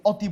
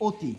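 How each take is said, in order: First: অতি said with an open "aw" first; অতি keeping its open অ; open initial vowel. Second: অতি said with a rounded "o" first; অতি with ও for its first sound; closed initial O. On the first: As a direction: say অতি as "awti", the form not used. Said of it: "অতি বলি না, আমরা কি বলি?". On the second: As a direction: say অতি as "oti", the spoken form. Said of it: "আমরা কি বলি?". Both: Shown as a demonstration.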